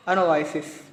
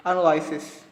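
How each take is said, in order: Both takes have the same delivery.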